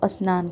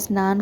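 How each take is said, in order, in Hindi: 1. s से पहले एक स्वर ध्वनि जोड़ी जाती है। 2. शब्द सीधे s ध्वनि से शुरू होता है।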